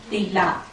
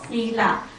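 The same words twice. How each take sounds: First: It is pronounced the Burmese way. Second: It is pronounced the Pali way. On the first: "Burmese people we pronounce as sila" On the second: "In Pali, it is called sila"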